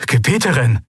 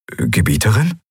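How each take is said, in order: First: Gebieterin cried out higher with a firm fall; an urgent, exclaimed Gebieterin; urgent protest. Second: Gebieterin asked with a bewildered rising tune; a baffled, questioning Gebieterin; puzzled question. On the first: Aide protesting as she turns away, urgent exclamation. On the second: Aide puzzled by his ruler's reaction, rising question. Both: A narrator's reading.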